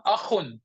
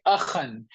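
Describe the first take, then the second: First: Akhun, ending in a short "-un"; wrong nominative ending. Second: Akhan, ending in "-an"; correct accusative ending. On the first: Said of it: "you will not say". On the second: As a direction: say akhan with an "an" ending, as the right form. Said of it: "So you will say". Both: Shown as a demonstration.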